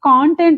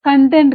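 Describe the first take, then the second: First: The first vowel is a long open 'ah'. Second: The first vowel is a short 'uh'. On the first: It means material or substance. "చెప్పడానికి కాంటెంట్ అనాలి" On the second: It means satisfied or happy. "కంటెంట్ అంటే సంతృప్తి లేకపోతే సంతోషం"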